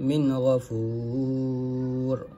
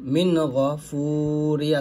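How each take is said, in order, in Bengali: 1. শব্দটি র ব্যঞ্জনবর্ণ দিয়ে শেষ হয়েছে। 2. শব্দটি হ্রস্ব ই-কার দিয়ে শেষ হয়েছে।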